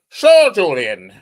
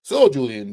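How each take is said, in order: First: It is said in a football commentator voice. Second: It is said in his normal voice.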